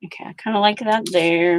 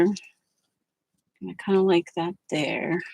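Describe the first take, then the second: First: Said in the usual way. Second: Softer, slow murmured echo; quiet drawn-out musing; soft slow repeat. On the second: Shown as a demonstration. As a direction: say it again to yourself, softly and slowly.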